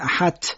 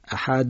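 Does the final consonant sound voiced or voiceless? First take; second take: voiceless; voiced. First: The final consonant is voiceless, like a t. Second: The final consonant is voiced, like a d. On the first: The speaker calls it wrong. "بعضی میگن احد ... ت میگن" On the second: The speaker calls it right. "اقلا جهرش رو باید بگید"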